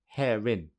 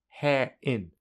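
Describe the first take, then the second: First: An r sound joins the two words together. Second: The words are said with no r between them. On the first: "secondly with linking" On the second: "Firstly without linking"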